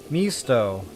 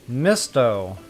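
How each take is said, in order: Both takes have the same delivery.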